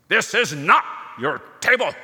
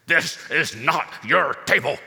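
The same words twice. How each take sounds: First: Put-on louder, higher heavy German accent. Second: Put-on stern father in a heavy German accent. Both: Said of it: "in a heavy German accent".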